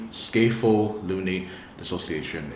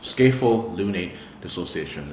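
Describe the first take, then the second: First: Scapholunate dissociation spoken slightly slower, word by word; a bit more slowly. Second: Said in the usual way. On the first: Shown as a demonstration. Vlogger saying the medical term for viewers, a bit slowly. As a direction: space out Scapholunate dissociation for clarity. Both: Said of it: "Let me say that a bit more slowly".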